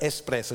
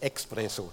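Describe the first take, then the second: First: The word begins with an s sound, no k. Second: The word begins with a ks sound. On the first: The speaker calls it right. "das heißt über Espresso" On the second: The speaker calls it wrong. "nicht Expresso"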